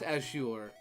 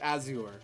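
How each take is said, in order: First: The z is sounded like sh. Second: The z is sounded as a plain z. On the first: The speaker calls it right. "Since when could Z be an S H?" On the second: The speaker calls it wrong. "I have been pronouncing it Azure"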